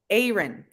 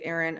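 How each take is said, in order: First: The first vowel sounds like 'hey'. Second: The first vowel does not sound like 'hey'. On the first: This is how the name is meant to be said. The speaker calls it right. "the I is meant to. I, I, hey, hey" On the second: This is how most English speakers say the name. The speaker calls it wrong. "Most Anglophones say Aaron"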